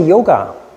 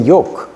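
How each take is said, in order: First: The word ends with a final vowel sound. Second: The word ends on a consonant, no final vowel. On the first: This is not how Indian speakers say it. "they don't say yoga" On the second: This is how Indian speakers say it. "they say yog"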